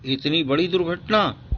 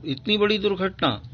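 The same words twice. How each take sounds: First: Said in the usual way. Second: Higher, softer shocked reading; higher, softer dismay at the accident. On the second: Shown as a demonstration. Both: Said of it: "ओह".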